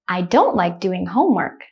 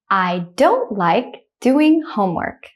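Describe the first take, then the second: First: The sentence is spoken quickly. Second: The sentence is spoken slowly. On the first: "the second time I'll say it quickly like a native speaker" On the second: "I'll say the first one slowly"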